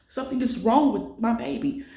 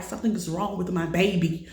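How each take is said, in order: First: Higher and louder, pleading hard on wrong; begging them to listen, near tears; retold desperate cry. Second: Said in the usual way. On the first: To the paramedics, a retold louder desperate plea. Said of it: "I'm crying".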